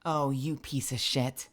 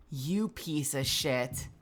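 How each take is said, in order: First: Low, soft, bitter muttering; low muttered curse. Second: Low, soft and slow, stress "You"; slow bitter mutter. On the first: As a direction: grumble it under the breath. Cursing at game quietly. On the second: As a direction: drag out "You piece of shit" quietly. Repeats curse slower. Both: Real, not acted.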